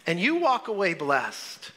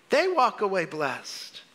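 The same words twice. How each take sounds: First: Said in the usual way. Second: They leaned on, slow and deliberate; slow preacher's emphasis on They; stress on They. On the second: Shown as a demonstration. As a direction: hit They to turn it from you to them.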